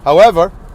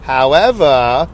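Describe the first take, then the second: First: It is said in the speaker's plain voice. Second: It is said in a Southern Jewish lady voice.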